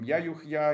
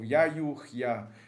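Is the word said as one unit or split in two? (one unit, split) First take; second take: one unit; split. First: It is said as one unbroken unit. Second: It is split into two separate parts. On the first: "Можно одним слогом" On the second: "Можно произносить его в виде двух слогов"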